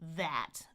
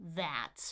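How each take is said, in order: First: The vowel is full with a wide open jaw. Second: The same.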